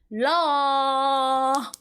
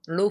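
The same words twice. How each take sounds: First: The vowel is said with a wide open jaw. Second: The vowel is said with a less open jaw. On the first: The speaker calls it right. "you have to open up your jaw" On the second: The speaker calls it wrong. "some people might say law firm"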